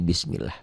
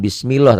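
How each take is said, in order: First: "bismillah" with a light, thin L and open "lah"; softer bismillah ending in clear "lah", no O; thin Allah. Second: "bismillah" with the last vowel rounded to O, "bismilloh"; wrong O sound. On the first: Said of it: "Ini dibacanya nggak bunyi A". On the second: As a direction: mispronounce bismillah with a thick "loh" ending. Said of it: "nggak bunyi O. Jangan bismillah". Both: Shown as a demonstration.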